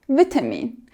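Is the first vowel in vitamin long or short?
short. The first vowel is a short I sound. "the British say vitamin with a short I"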